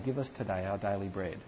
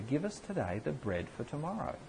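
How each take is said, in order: First: Said in the usual way. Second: The true wording, deliberately clear; clear corrected wording. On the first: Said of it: "Jesus does not say". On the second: Shown as a demonstration. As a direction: set it right, leaning on "the bread for tomorrow". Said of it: "really clearly".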